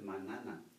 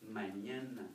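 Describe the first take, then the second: First: The middle consonant is a plain n sound. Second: The middle consonant is an ny sound. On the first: The speaker calls it wrong. "because you don't say it as manana" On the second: The speaker calls it right. "very important that any"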